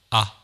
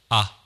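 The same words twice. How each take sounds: No difference in how they are said.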